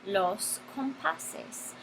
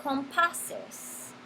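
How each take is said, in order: First: "los compases" drawn out very slowly and softly; slow teacher demo of the plural "compases"; slow modelling. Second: Said in the usual way. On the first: Shown as a demonstration. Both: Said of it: "vamos a decir los".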